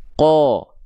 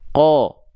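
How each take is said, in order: First: The vowel is made with lips pushed forward. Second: The vowel is made with lips pushed forward.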